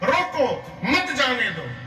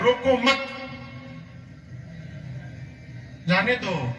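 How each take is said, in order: First: The pause comes right after 'roko'. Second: The pause comes right after 'mat'.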